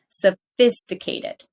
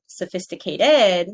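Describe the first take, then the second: First: Slow "Sophisticated", so-FIS-ti-cated; stress on second syllable. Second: "sophisticated" as sophisti-ca-TED, last syllable punched; slow "sophisticated" with stress wrongly on the end. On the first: Teacher models correct stress, "Sophisticated" with FIS strong. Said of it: "where we put the stress". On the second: Teacher shows wrong stress, "sophisticated" punched on TED. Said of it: "not sophisticated". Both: Shown as a demonstration.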